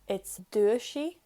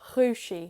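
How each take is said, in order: First: The word starts with a plain D sound. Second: The word starts with a soft throaty sound. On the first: The word is in its basic form. "on its own, without séú" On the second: The word is in its changed form. "It's like a G in your throat"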